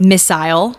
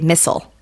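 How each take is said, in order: First: It is said with a British pronunciation. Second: It is said with a non-British pronunciation. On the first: This is how someone else says it. "like a British" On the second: This is the speaker's own way of saying it. "I would say missile"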